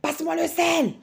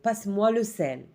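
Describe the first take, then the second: First: It is said angrily, as an order. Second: It is said calmly, as a simple request.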